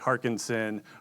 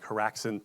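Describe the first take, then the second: First: The name is said as Harkinson. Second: The name is said as Haraxin. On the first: The speaker calls it wrong. "people say Harkinson" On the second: The speaker calls it right. "Having a name like Haraxin"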